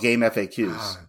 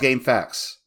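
First: FAQ is spelled out as three separate letters. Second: FAQ is said as one word, like 'fax'. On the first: The speaker calls it wrong. "You don't call it game FAQs" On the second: The speaker calls it right. "how it's pronounced fact"

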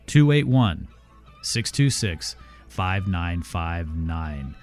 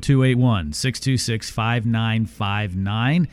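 First: The number is read more slowly. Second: The number is read at normal speed.

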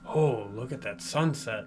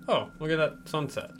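First: It sounds awed, as at a stunning sunset. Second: It sounds flat, as at a bland sunset.

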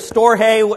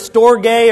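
First: It is said in a Hispanic accent. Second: It is said in a plain English accent.

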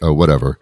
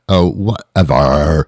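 First: It is said plainly, without dramatic flair. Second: It is said dramatically, in a condescending Valley style. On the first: The speaker calls it wrong. "Don't just say" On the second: The speaker calls it right. "throw the entire theatrical force behind it"

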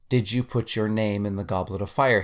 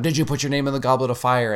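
First: It is said calmly and quietly. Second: It is shouted loudly and forcefully.

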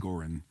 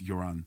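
First: The name begins with a hard G sound. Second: The name begins with a Y sound. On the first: This is how most people say the name. The speaker calls it wrong. "Everybody calls him Goran" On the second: This is the name's actual pronunciation. The speaker calls it right. "but his the pronunciation's Joran"

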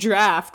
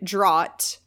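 First: The word sounds like 'draft', with an f. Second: The word does not sound like 'draft'. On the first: The speaker calls it right. "it's pronounced draft" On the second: The speaker calls it wrong. "I pronounced the word draught wrong"

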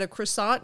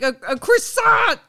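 First: It is said calmly, as a mild question. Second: It is said intensely, as a forceful exclamation.

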